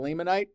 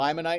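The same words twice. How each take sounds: First: The first syllable sounds like 'limb'. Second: The first syllable sounds like 'lime'. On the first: "instead of limonite" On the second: "If you mispronounce this one, call it limonite"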